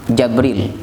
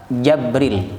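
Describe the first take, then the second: The two takes are said the same way.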